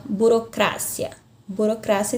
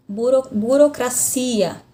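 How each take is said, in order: First: BUROCRACIA stressed on CRA, bu-ro-CRA-cia; Spanish stress. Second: BUROCRACIA stressed on CI, bu-ro-cra-CI-a; Portuguese stress. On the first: Teacher shows the stress moving in Spanish, onto CRA. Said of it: "já muda aqui a sílaba tônica". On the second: Teacher gives the Portuguese example, stress on CI. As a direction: lean on the CI of BUROCRACIA. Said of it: "na língua portuguesa". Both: Shown as a demonstration.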